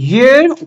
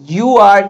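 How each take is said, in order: First: The two words merge into one short syllable. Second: Both words are said fully and separately. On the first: "আমরা যদি এটাকে contraction করি কি হবে?" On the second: "ইউ আর, দ্যাট ইজ"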